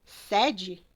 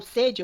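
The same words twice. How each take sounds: First: "sede" with open é, sounded sed-jee with an open e, the headquarters word. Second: "sede" with closed e, sounded sed-jee, the thirst word. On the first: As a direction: say "sede" with an open é, like a head office. ("sede" com e aberto, de matriz de uma empresa) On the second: ("sede" com e fechado, de vontade de beber) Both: Shown as a demonstration. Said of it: "sede e sede são escritas exatamente da mesma forma, só que a pronúncia é diferente".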